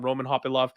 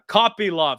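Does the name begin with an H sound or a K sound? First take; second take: H sound; K sound. First: The name begins with an H sound. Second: The name begins with a K sound. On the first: The speaker calls it wrong. "I see Kopylov and I think Hopilov" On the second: The speaker calls it right. "Sorry. I hear you all in the chats"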